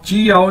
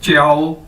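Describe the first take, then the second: First: चियाओ split into "chee-yao"; wrong pronunciation. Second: च्याओ run together as "chyao"; correct pronunciation. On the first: Teacher warning learners what not to say, split mispronunciation. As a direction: say चियाओ with a separate "ee" before "yao". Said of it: "चियाओ नहीं कहना इसको". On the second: Teacher showing learners what to say instead, blended pronunciation. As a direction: glide straight through च्याओ, no separate "ee". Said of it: "इसको कहना च्याओ". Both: Shown as a demonstration.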